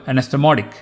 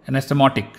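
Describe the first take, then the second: The two takes are said the same way.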